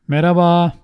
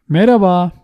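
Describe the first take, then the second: Both takes have the same delivery.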